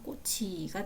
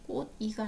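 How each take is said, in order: First: The final consonant moves into the second syllable. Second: The final consonant stays in the first syllable. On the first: The speaker calls it right. "형식 형태소가 모음에 그대로 연음이 돼서" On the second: The speaker calls it wrong. "꽃이가 아니라"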